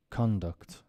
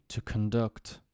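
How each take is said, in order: First: Conduct stressed on the first syllable, CON-duct; conduct, weight on CON; noun stress. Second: Conduct stressed on the second syllable, con-DUCT; verb stress. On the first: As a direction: say CON-duct with a full first vowel, falling. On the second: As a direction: say conduct with a weak first vowel, kun-DUCT. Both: Shown as a demonstration. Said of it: "words that change stress depending".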